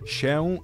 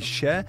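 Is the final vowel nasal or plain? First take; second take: nasal; plain. First: The final vowel is nasal. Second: The final vowel is plain, without nasality. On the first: "Ta nosowa już trochę zaczyna właściwie zanikać" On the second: "ta druga jest uważana za troszeczkę ładniejszą"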